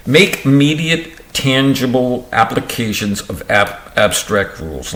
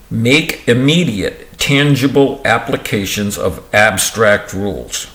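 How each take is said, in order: First: Stumbling first take. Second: Said in the usual way. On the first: Real, not acted. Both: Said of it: "Let me try that one again".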